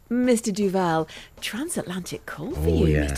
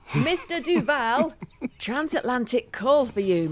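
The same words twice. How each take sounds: First: The line is said in a lovely, charming way. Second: The line is belted out loudly and bluntly. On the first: The waiter is playing up to someone to impress. "just being lovely and charming and really playing up to Raquel" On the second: The waiter misunderstands what he should be doing. "with no attempt at an Italian accent, he just belts out the line"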